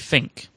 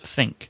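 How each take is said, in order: First: The word starts with an f sound. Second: The word starts with a th sound. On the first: The speaker calls it wrong. "I would say think, when that's not correct" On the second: The speaker calls it right. "It's think"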